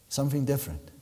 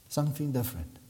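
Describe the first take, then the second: No difference in how they are said.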